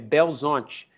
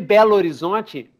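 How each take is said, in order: First: The two words are squeezed into one short word. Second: Both words are pronounced fully and separately. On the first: This is how local people really say the name. The speaker calls it right. "Vai grudando tudo e ficando uma coisa" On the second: Nobody really says the name this way. The speaker calls it wrong. "Belo Horizonte não existe"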